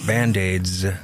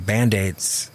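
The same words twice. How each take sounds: First: The final sound is a buzzing Z. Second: The final sound is a hissing S. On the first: The speaker calls it right. "the Z makes it a prettier sound" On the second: The speaker calls it wrong. "it shouldn't be"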